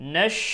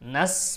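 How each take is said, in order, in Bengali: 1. এটি sh ধ্বনি দিয়ে বলা হয়। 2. এটি সাধারণ s ধ্বনি দিয়ে বলা হয়। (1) "শিন উচ্চারণ করতে হবে" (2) "নাস বলা যাবে না, সিনের মতো উচ্চারণ করা যাবে না"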